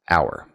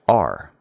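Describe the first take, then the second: First: It sounds like the full word 'hour'. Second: It sounds like the word 'are'. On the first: "Some people pronounce the word hour like this" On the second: "But other people pronounce it R"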